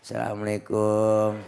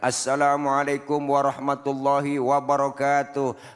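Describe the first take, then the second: First: It is said unclearly, in a mumble. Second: It is said like a preacher's greeting.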